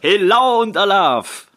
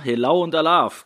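First: The greeting is said with more euphoric energy. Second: The greeting is said in a plain, calm way.

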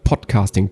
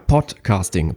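First: The voice sounds fuller and warmer. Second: The voice sounds thinner and less warm. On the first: "ich spreche jetzt eben ohne Popschutz rein" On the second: "Dafür fehlt auch ein bisschen mehr Wärme"

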